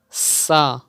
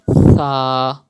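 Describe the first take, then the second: First: The first consonant has a sharp whistling hiss. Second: The first consonant is soft, without any whistle. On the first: The speaker calls it wrong. "you are making a whistle like high sound" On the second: The speaker calls it right. "read Tha without whistle sound"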